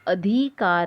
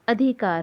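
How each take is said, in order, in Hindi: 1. इ स्वर को खींचकर लंबा बोला जाता है। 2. इ स्वर को छोटा और जल्दी से बोला जाता है। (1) "सही शब्द अधिकार नहीं होता" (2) "होता है"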